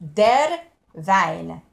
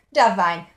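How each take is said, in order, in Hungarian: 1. Az der szóban az R hangot tisztán ejtik. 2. Az der szóban az R hangot alig hallani. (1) "Mondom nagyon magyarosan" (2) "azt az R hangot próbáld meg elracsolni"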